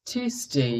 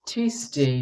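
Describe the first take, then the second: No difference in how they are said.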